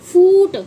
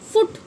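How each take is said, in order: First: The vowel is drawn out long. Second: The vowel is short and clipped. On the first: The speaker calls it wrong. "फूट नहीं बोलते ना" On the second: The speaker calls it right. "यानी short sound जो होती है"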